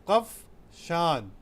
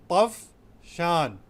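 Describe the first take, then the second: No difference in how they are said.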